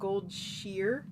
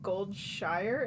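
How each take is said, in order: First: The ending rhymes with the word 'fear'. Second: The ending rhymes with the word 'fire'. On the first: The speaker calls it right. "it's pronounced Goldshire, like the correct pronunciation ... supposed to be sheer" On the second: The speaker calls it wrong. "it's not pronounced Goldshire ... not shire"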